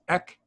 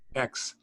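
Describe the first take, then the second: First: The word ends in a plain k sound. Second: The word ends in a ks sound. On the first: "This one is a kappa, which is just simply ek" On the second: "like an X at the end of uh, fox"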